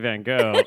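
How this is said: It is said the American way.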